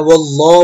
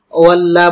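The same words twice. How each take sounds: First: ওয়াল্লাহ with thick l and rounded "o", "wolloh"; heavy Allah. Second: ওয়াল্লাহ with a light l and open "a", "wallaah"; thin Allah, wrong. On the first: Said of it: "ওয়াল্লাহ বলতে হবে". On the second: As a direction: say ওয়াল্লাহ thinly, as the mistake. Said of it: "ওয়াল্লাহ বলা যাবে না". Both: Shown as a demonstration.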